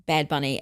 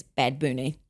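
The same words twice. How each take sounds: First: Said in the usual way. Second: "Booney" with a long oo; altered pronunciation. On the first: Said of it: "had to pronounce Bad Bunny as". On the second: Shown as a demonstration. Podcaster relaying listeners' correction, "[name]" with a long oo. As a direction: say "Booney" with oo replacing the short u. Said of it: "telling us we had to pronounce".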